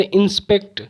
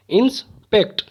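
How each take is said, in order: First: Said in the usual way. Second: "inspect" broken as इंस, pause, पेक्ट; split into syllables. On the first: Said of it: "दो बार में ही रुकावट". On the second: Shown as a demonstration. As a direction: stop briefly midway through "inspect". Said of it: "दो बार में ही रुकावट जो हुई". ("Inspect" को दो हिस्सों में रुककर)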